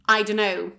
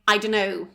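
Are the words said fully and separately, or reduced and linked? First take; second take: linked; linked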